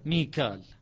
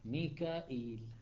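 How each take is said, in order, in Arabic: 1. تنتهي الكلمة بـ -kal بدون همزة. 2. تنتهي الكلمة بـ -ka'il مع الهمزة. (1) "كيف يقرأ حفص؟" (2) "فتكون قراءة شعبة ميكائيل"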